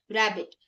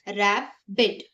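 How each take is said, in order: First: Said in the usual way. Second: "rabbit" broken in two, रै, बिट; split into syllables. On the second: Shown as a demonstration. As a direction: pause between the syllables of rabbit. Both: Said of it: "divide करना है".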